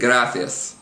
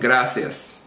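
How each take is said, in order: First: The middle consonant is a th sound. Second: The middle consonant is an s sound. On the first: This is the pronunciation used in most of Spain. "pronounced with a T H kind of a sound" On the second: This is the Latin American pronunciation. "pronounced like an S"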